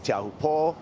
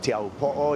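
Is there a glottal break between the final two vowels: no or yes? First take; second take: no; yes. First: The final vowels run together without a break. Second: A glottal break separates the final two vowels. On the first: "People say" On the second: "if you respect kind of the okina or that mark that's in between the two O's"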